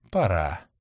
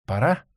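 First: «Пора.» said lower, with a falling tune; answering tune. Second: «Пора?» asked with a rising tune; asking tune. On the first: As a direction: settle «Пора.» down with a firm drop. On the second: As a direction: ask «Пора?» with a lift at the end. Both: Acted. Question then answer, same word.

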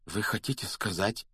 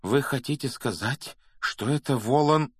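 First: Hoarse, hushed start of a question. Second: Higher, building toward the dreaded name; dawning alarm. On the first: A narrator's reading. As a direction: begin hoarsely, barely daring to ask. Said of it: "хрипло начал Гарри". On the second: Acted. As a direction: repeat it with rising urgency, slowing on the last words. Repeats question, building to the name.

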